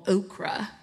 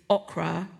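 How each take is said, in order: First: It is said in a put-on American accent. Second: It is said in the speaker's own, non-American accent.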